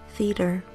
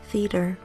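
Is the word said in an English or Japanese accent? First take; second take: English; English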